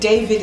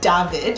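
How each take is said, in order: First: The name is said with English pronunciation. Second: The name is said with German pronunciation. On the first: "David is English" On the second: "if you were going to pronounce it in German, it would be David"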